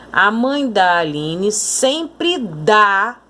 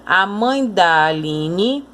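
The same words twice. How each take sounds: First: Slow, "dá" said with clear force; "sempre dá" with a firm, stressed "dá" standing apart; strong stressed dá. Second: Slow, "da" barely sounded and merged with "mãe"; "da" light, no stress, joined to the word before; weak unstressed da. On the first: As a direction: give "dá" full weight on its own. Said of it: "esse dá é pronunciado com mais força". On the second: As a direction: glide over "da" as if it were part of "mãe". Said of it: "quase que se junta com a anterior". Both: Shown as a demonstration.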